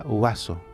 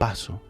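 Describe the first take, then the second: First: The first sound is a blend of U and B. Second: The first sound is a plain B sound. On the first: This is the older Latin sound. "en latín esa, ese sonido era vaso" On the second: This is the modern Spanish sound. "ese sonido desapareció y se convirtió en vaso"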